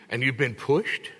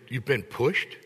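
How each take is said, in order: First: "pushed" drawn out slowly and leaned on; slow stress on pushed. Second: Said in the usual way. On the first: Real, not acted. Preacher telling listeners how study stretches them, stressing "pushed". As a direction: linger on "pushed" and give it weight.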